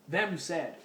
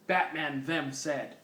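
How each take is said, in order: First: "them" leaned on and drawn out with a falling tune; stress on them. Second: Said in the usual way. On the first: Shown as a demonstration. Reader re-reads the typo to mock it, stressing "them". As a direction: point out the typo by hitting "them". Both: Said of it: "again, them".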